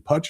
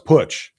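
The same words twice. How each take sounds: First: The vowel sounds like the one in hutch. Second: The vowel sounds like the one in put. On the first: The speaker calls it wrong. "rhymes with Hutch" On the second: The speaker calls it right. "like put your money where your mouth"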